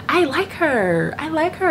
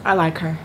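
First: High, slow, sing-song gushing; drawn out and dreamy, like a crush. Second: Said in the usual way. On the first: Real, not acted. Gushing about a preacher she likes.

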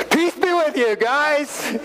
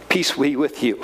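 First: High, breezy, buddy-like greeting; casual Jesus. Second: Said in the usual way. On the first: Retold or imitated. Jesus surprising his frightened friends, high and cheery. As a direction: pop in and greet the guys cheerfully. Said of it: "all of a sudden he goes".

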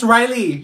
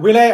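First: "Riley" as RYE-lee; corrected name. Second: "Relay" as wih-LAY, loud; mispronounced name. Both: Acted. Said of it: "It's Riley".

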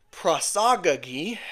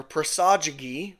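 First: "prosagagi" with both g's hard, as in "go"; hard-g pronunciation. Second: "prosagagi" with the first g soft, as in "gem"; soft-g pronunciation. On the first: Teacher offers one way to say the word, "prosagagi" with hard g's. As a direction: say "prosagagi" like prah-SAH-guh-ghee. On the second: Teacher offers another way to say the word, "prosagagi" with a soft first g. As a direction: say "prosagagi" like pruh-SAH-juh-ghee. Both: Shown as a demonstration. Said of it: "however you wanna pronounce it".

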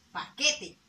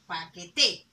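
First: Paquete with the force on que; paquete, second syllable strongest; stress on QUE. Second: Paquete with a loud final TE; paquete, last syllable strongest; stress on TE. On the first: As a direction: lean on the middle of paquete. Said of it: "La sílaba tónica es la que". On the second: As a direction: push the force onto the end of paquete. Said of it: "hace la mayor fuerza de voz". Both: Shown as a demonstration.

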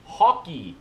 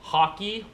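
First: "Hockey" with a firm falling tune; Canadian accent, land "Hockey" as a statement; practising Canadian accent. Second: Higher "Hockey" with rising tune; Canadian accent, lift "Hockey" like a question; practising Canadian accent. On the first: Vlogger practising "Hockey", Canadian accent, falling. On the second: Vlogger practising "Hockey", Canadian accent, rising. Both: Shown as a demonstration. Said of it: "I'll practice".

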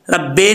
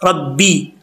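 First: "रब्बे" ending in a slack e; "रब्बे", final vowel opened to e; wrong vowel. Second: "रब्बी" ending in a clear ee; "रब्बी", doubled b then ee; correct vowel. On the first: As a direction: demonstrate the slip, "रब्बे" with e for ee. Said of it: "नहीं पढ़ना". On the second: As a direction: model "रब्बी" with a pure final i. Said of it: "रब्बे नहीं पढ़ना". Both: Shown as a demonstration.

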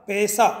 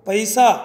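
First: पैसा said as pesa with plain e; Malwi pesa. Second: पैसा said with ai, pəisa; Hindi paisa. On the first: Teacher giving the Malwi form, पैसा as pesa. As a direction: let पैसा flatten to pesa. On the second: Teacher giving the Hindi word, पैसा with ai. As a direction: stress the ai in पैसा. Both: Shown as a demonstration. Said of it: "ओ में बदल जाता है".

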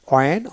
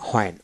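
First: "ওয়েন" begun on w with no h; ওয়েন without any h; w-sound for WH. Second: "হোয়েন" begun on an audible h; হোয়েন with the h sounded. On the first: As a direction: say ওয়েন as a demo, rounded w first. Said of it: "ও উচ্চারিত করা হয়". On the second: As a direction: say হোয়েন as a demo, h before the vowel. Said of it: "কখনো হ উচ্চারিত করা হয়". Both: Shown as a demonstration.

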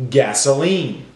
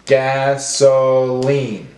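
First: Said in the usual way. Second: Gas... o... line, slowly; broken into syllables. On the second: Shown as a demonstration. Teacher breaking up words for class, slow and segmented. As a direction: sound it out syllable by syllable. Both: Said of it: "break up our words into syllables".

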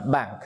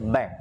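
First: "bank" with a British open "a"; British open-vowel "bank"; British accent. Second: "bank" with an American fronted vowel; American "bank", vowel raised toward "eh"; American accent. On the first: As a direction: say "bank" British-style, like "bahnk". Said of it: "người nói tiếng Anh theo giọng Anh". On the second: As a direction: say "bank" American-style, close to "benk". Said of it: "nói tiếng Anh theo giọng Mỹ". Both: Shown as a demonstration.

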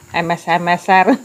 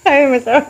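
First: Said in the usual way. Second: Laughing through the word; giggling while saying it. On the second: Real, not acted. Second try, laughing.

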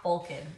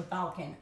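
First: Balkan said as "BOL-kin"; first vowel as O. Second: Balkan said as "BAL-kin"; first vowel as A. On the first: Niece informing her uncle, Balkan as "BOL-kin". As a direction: say Balkan with a round O, like "bowl-kin". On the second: Offering the other version, Balkan as "BAL-kin". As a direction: correct Balkan to a short A, as in "pal". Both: Shown as a demonstration. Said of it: "I don't know how to say it".

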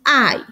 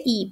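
First: "I" said as "ai"; correct "I". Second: "I" said as "ee"; the Spanish letter sound "ee" for "I"; wrong "I". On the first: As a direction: open diphthong "ah-ee" on "I". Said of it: "suena como". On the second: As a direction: read "I" as a short "ee". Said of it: "No se dice". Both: Shown as a demonstration.

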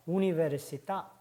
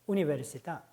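First: 우니베르시타 with the last syllable 타 stressed and lengthened; final stress demo. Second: 우니베르시타 again with the stress on 타, rising; final stress repeated. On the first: Teacher modeling accented final vowel, stressed. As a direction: lean hard on 타 in 우니베르시타. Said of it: "강세를 줘야 됩니다". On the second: Teacher repeating the accented word, stressed. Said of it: "이렇게 발음하죠". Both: Shown as a demonstration.

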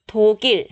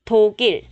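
Both takes have the same delivery.

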